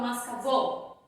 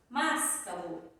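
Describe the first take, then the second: First: The stress is on the last syllable. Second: The stress is on the first syllable. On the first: "Não falo mascavô" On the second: "Não é o mas"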